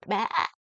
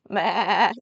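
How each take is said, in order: First: Said in the usual way. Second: A loud mock "Baa" like a sheep; sheep bleat. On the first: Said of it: "Let me hear you say that". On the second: Shown as a demonstration. Grandma shows the child a loud bleating "Baa". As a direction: bleat "Baa" out like a lamb, louder. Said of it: "something like that".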